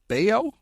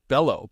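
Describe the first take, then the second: First: The middle consonant is a Y sound. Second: The middle consonant is an L sound. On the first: The speaker calls it right. "but it's Bayo" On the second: The speaker calls it wrong. "I always pronounce it Bello"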